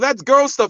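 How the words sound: It is said in an admiring, looking-up tone. Girl things are held in high regard.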